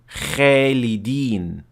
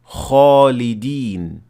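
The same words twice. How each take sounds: First: The first letter sounds thin and light. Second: The first letter sounds full and heavy. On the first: The speaker calls it wrong. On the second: The speaker calls it right. "pronounced properly"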